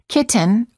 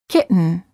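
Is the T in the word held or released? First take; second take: released; held. First: The T sound is released before the N. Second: The T sound is held before the N. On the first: The speaker calls it wrong. "Don't say" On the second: The speaker calls it right. "say kitten"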